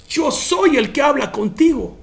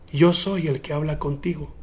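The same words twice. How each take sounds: First: Higher, amazed restatement; awed repetition. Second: Soft, hushed and low; solemn revelation. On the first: Preacher repeating Jesus's words to the congregation in awe, higher. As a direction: lift it up in wonder. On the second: Jesus revealing himself to the woman, hushed and solemn. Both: Retold or imitated. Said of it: "Oh my God, hermano".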